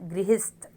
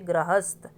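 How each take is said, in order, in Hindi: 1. पहला अक्षर 'gri' की तरह बोला जाता है। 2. पहला अक्षर 'gra' की तरह बोला जाता है। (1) "यहाँ में हमारी साउंड है" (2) "फिर आप इसको प्रोनाउंस करोगे"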